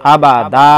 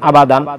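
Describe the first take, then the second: First: The word ends with a lengthened vowel, no n. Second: The word ends with a short vowel and n. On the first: The reader stops at this word. "আর যদি দম ফেলাই তাহলে এক আলিফ টানতে হবে" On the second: The reader continues without stopping. "যদি আমরা দম না ফেলাই তাহলে টানা যাবে না"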